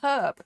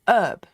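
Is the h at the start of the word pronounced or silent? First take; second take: pronounced; silent. First: It is said with the h sounded. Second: It is said the American way, without the h.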